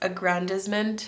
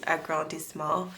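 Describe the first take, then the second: First: The word is said with an English pronunciation. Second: The word is said with a French pronunciation. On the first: "maybe it's aggrandizement" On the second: "the way you say it in French is agrandissement"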